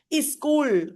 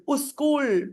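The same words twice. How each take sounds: First: "Is school" as one word, "iskool"; prosthetic vowel. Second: "us school" as one word, "uskool"; prosthetic vowel. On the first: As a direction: put a short "i" ahead of "school", as "Is school". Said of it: "they will say is school". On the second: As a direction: put a "u" ahead of "school", as "us school". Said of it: "Some people will say us school". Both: Shown as a demonstration. Teacher giving an example of prosthesis, extra initial vowel.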